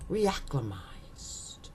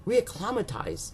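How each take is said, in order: First: "Reacclimatized" whispered slowly, stress on "clim", as a first try; testing a pronunciation. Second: "Reacclimatized" said aloud in full voice with the stress on "cli", like a "claw"; second try at a pronunciation. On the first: Host reading a word list, unsure how to say it, whispering a slow first try. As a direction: try out "Reacclimatized" under your breath, slowly. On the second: Host reading a word list, unsure how to say it, saying a voiced second try. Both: Shown as a demonstration. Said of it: "Is that how you would say it?".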